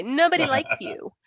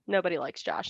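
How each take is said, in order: First: Higher, teasing dad line; mock fatherly jab with stress on NOBODY; imitating dad. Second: Said in the usual way. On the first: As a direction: throw it out like her dad did. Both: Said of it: "That's what Dad would say".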